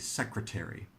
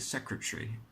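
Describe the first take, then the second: First: Every vowel in the middle is pronounced. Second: An unstressed middle vowel is left out. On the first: "I usually heard people say secretary" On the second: "So you can see a vowel drops out"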